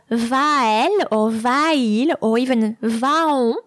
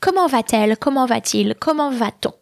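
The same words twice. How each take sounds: First: Va-elle, va-il, va-on, slowly with two vowels meeting, no T; vowels without linking T. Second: Va-t-elle, va-t-il, va-t-on, with a T bridging the vowels; added T sound. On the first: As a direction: say "va-elle", "va-il", "va-on" with nothing between the vowels. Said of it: "is really quite hard to". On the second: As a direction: link "va" to "elle", "il", "on" with a clear T. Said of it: "we add the T sound". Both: Shown as a demonstration.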